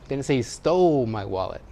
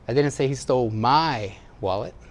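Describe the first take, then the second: First: The word 'stole' carries the main stress. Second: The word 'my' carries the main stress. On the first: The wallet was obtained without stealing. "He borrowed it. He found it" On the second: It was someone else's wallet. "Somebody else's"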